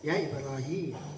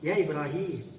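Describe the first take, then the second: Both takes have the same delivery.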